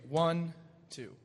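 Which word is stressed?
one. The first count is said more strongly. The strong beat falls where it is naturally expected. "which one of those is naturally stronger? ... One"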